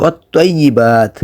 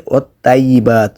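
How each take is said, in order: First: ওয়াত-তাইয়্যিবাত with heavy, rounded "toy"; correct thick t. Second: ওয়াত-তাইয়্যিবাত with light "tay"; mistaken thin t. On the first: Teacher showing the right word, ওয়াত-তাইয়্যিবাত with thick t. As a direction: say ওয়াত-তাইয়্যিবাত as wot-toyyibat. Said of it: "এখানে উচ্চারণ করতে হবে". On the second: Teacher showing the error, ওয়াত-তাইয়্যিবাত with thin t. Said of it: "উচ্চারণ করা যাবে না". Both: Shown as a demonstration.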